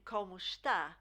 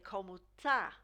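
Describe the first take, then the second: First: The verb is said in full as está. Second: The verb's first syllable is dropped, giving tá. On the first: The speaker calls it right. "instead of saying como está" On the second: The speaker calls it wrong. "they will drop the first part of this verb"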